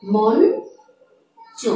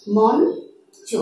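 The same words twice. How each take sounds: First: মঞ্চ stretched very slowly, nasal ন clearly held; মঞ্চ ধীরে ভেঙে উচ্চারণ; slowly broken down. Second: Said in the usual way. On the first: Shown as a demonstration. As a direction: draw out মঞ্চ as মন্-চ, syllable by syllable. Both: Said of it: "উচ্চারণটি হয়ে যাবে নয়ের মতো".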